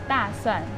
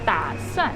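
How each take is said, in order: First: The first syllable has a falling tone. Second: The first syllable has a dipping tone. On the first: It means garlic. "both of them are fourth tone" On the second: It means to plan something. "the third tone"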